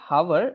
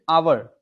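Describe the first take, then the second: First: The word begins with an audible h sound. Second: The word begins with a vowel, no h. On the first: The speaker calls it wrong. "We don't say hour" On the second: The speaker calls it right. "the H is actually silent"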